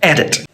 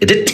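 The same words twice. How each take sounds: First: The stress is on the first syllable. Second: The stress is on the second syllable. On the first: The speaker calls it right. "the E D is the strong part" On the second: The speaker calls it wrong. "If it wasn't, it would sound more like edit"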